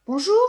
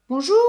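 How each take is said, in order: First: Higher, louder bonjour; louder repeated greeting. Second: Said in the usual way. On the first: Acted. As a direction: call it out again, louder. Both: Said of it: "répète Elena".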